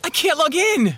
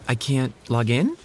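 First: It is said desperately, as if life depended on it. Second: It is said half-heartedly, with little struggle.

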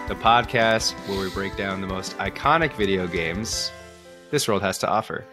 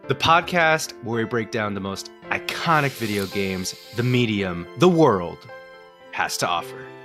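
First: It is said with less energy. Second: It is said with more energy.

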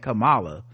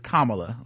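First: The first syllable does not sound like 'calm'. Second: The first syllable sounds like 'calm'. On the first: The speaker calls it wrong. "I was saying Kamala" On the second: The speaker calls it right. "now it's Kamala"

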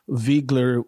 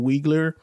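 First: The name begins with a V sound. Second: The name begins with a W sound. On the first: The speaker calls it right. "with its German pronunciation" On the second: The speaker calls it wrong. "as opposed to"

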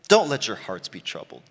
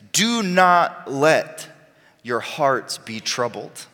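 First: It sounds gentle and reassuring. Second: It sounds firm and commanding.

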